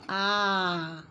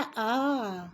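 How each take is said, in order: First: आ drawn out to two beats, slow; long two-beat a. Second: आ said short, one beat. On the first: Teacher shows pupils a two-beat vowel, drawn out slowly. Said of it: "दो मात्रा हो गई यहाँ". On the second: Teacher shows pupils a one-beat vowel, short and crisp. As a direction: clip आ to a single quick beat. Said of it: "आ से एक मात्रा बना". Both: Shown as a demonstration.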